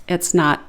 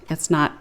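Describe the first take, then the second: Both takes have the same delivery.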